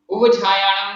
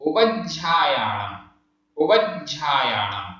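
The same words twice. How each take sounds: First: उपज्जायाणम with वा cut short, louder and higher; उपज्जायाणम with no length on वा, shown as an error; wrong pronunciation. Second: उपज्जायाणम slow, with वा held long and stressed; उपज्जायाणम spoken slowly, वा given full length; correct pronunciation. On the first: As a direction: rush through वा in उपज्जायाणम as the wrong way. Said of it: "नहीं है". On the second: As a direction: linger on वा in उपज्जायाणम. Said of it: "वा में stress देना पड़ रहा है". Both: Shown as a demonstration.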